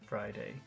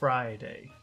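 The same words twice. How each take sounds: First: The word is said plainly, with flat intonation. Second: The word starts with a long, drawn-out F sound. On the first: "Normal Friday" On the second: "You could make the F longer too"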